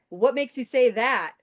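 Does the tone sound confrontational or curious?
confrontational. It is asked in a sharp, confrontational tone. The speaker calls it wrong.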